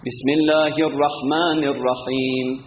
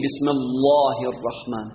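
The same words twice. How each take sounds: First: Thin, light L in الله after a kasra; light L in Allah. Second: Thick, dark L in الله, the mistake; heavy L in Allah. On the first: Teacher showing correct recitation, light الله. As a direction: recite الله with an unthickened L, slowly. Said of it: "نمیگیم بسم الله الرحمن". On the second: Teacher showing what not to say, heavy الله. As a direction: say الله heavy with a rounded vowel. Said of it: "نمیگیم". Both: Shown as a demonstration.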